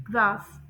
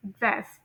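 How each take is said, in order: First: ग्रास with a long open aa; British pronunciation. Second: ग्रास with a short flat a, like gress; American pronunciation. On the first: Teacher modelling British vowel, long aa. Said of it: "British English के according इसे pronounce करेंगे". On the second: Teacher modelling American vowel, short flat a. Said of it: "American English के according इसे pronounce करेंगे". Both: Shown as a demonstration.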